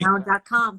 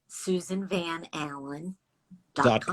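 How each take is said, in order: First: It is said at normal speed. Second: It is said slowly.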